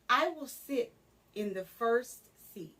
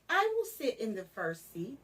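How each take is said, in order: First: The sentence is said slowly. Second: The sentence is said quickly. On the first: "begin slow" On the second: "and then speed up"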